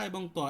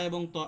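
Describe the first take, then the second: The two takes are said the same way.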